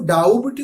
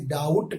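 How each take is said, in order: First: ڈاؤبٹ said as "daubt", b sounded; ڈاؤبٹ with the b pronounced; wrong doubt. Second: ڈاؤٹ said as "daut", silent b; ڈاؤٹ straight from au to t; correct doubt. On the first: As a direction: say ڈاؤبٹ with a b before the t. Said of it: "یہ غلط pronunciation ہے". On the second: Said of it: "ہم اسے ڈاؤٹ پڑھیں گے". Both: Shown as a demonstration.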